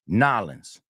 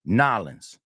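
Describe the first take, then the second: First: The city name is squeezed into two syllables. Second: The same.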